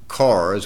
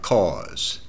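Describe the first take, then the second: First: The r sound is pronounced. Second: The r sound is dropped. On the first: This is how outsiders say it. The speaker calls it wrong. "We don't drive cars" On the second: This is the local way to say it. The speaker calls it right. "We don't have any R's at all in our vocabulary"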